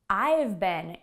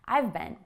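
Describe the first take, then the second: First: The phrase is said at a slower pace. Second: The phrase is said at a faster pace.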